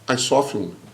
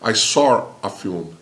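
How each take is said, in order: First: An American accent, with no added R sound. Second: A British accent, with an R linking saw and a. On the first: "O americano fala" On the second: "O britânico vai falar ... Percebeu como o R é intrometido?"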